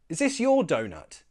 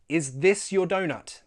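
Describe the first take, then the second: First: The th sound is dropped, spoken fast. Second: The th sound is pronounced, spoken slowly. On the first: "Notice I removed the T H sound" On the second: "this time, the slow way"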